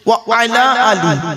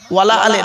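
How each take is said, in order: First: 'Wa' and 'ala' are said as separate words. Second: 'Wa' and 'ala' run together as 'wala'. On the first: It means upon the family. The speaker calls it right. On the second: It sounds like a negation. The speaker calls it wrong.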